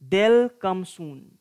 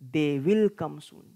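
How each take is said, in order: First: The verb is contracted into one syllable. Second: The verb is said as a separate full word. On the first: "contracted forms of verbs" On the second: "without contracted forms"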